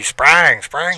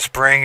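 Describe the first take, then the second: First: "sprang" drawn out with a southern drawl on the vowel; lightly imitated Southern "sprang". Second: Said in the usual way. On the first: Shown as a demonstration. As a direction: say "sprang" like country Southern folk. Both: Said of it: "think of a southern drawl".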